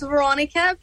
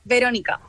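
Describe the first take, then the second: First: The name has an American English pronunciation. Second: The name has a Spanish pronunciation. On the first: "the American way is Veronica" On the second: "the Spanish way is Veronica"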